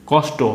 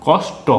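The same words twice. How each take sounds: First: Said in the usual way. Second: "কষ্ট" drawn out as kosh, then to; split at the conjunct. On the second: Shown as a demonstration. ("কষ্ট" ভেঙে কস-ট করে পড়া) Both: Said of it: "একটাকে টেনে পড়তে হবে".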